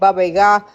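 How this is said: It is said the family's different way. This is how the speaker's parents say it. "but they always said Baba Yaga"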